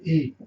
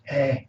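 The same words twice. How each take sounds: First: "e" said with a narrow, closed mouth; closed vowel. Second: "eh" with the mouth wide open; open vowel. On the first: Teacher contrasts it with eh, closed vowel. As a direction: keep "e" tight and closed. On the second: Teacher shows learners the open accent, open vowel. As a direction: drop the jaw for an open "eh". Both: Shown as a demonstration. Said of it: "The mouth is open".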